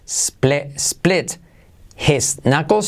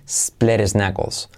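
First: Each word is said separately, with a clear t and h. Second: The words run together, with a tapped t and no h.

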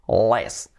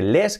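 First: The L sounds like an English L. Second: The L sounds like a Spanish L. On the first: The speaker calls it right. "que suene la, la, ese sonido, less" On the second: The speaker calls it wrong. "para que no suene less"

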